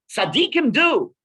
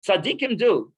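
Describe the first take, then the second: First: Tzaddikim do, with do lifted high and loud; emphatic exclamation. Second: Said in the usual way. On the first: Shown as a demonstration. Rabbi to his class, exclaiming the key line high and loud. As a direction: ring out Tzaddikim do like a revelation.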